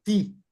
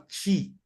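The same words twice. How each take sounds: First: Ti with hard northeastern T; northeastern Brazilian accent. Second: Ti pronounced 'chee'; soft palatal ti. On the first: Showing how the nordestino says it, northeastern hard ti. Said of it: "ele fala ti". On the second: Showing what northeasterners don't say, ti as 'chee'. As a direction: say ti with a 'ch' onset. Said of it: "Ele não fala ti". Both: Shown as a demonstration.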